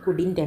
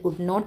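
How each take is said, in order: First: It is said as one contracted word. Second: It is said as two separate full words. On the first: "pronounce ചെയ്യേണ്ടത്, വായിക്കേണ്ടത് കുഡിൻറ്റ് എന്നാണ്" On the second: "അത് കുഡ് നോട്ട് എന്നാണ് meaning"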